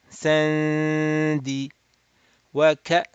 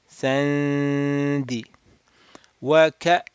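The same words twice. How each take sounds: No difference in how they are said.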